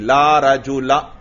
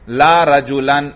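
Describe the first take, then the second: First: The last word ends without an n sound. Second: The last word ends with an n sound. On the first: The noun is treated as fixed and indeclinable here. "तन्वीन नहीं आ रही" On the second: The noun is treated as declinable with its normal case ending. "तन्वीन आनी चाहिए थी, ला रजुलन फिदार यूं कहते हम"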